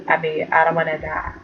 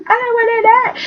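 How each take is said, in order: First: Softer, lower frightened murmur; quiet scared mumble. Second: Much higher, rising mock wail; high whiny fear. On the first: Retold or imitated. Ashley scared for herself, quiet lower frightened mumble. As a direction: mumble it low like she's scared. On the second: Ashley scared for herself, high rising mock-frightened whine.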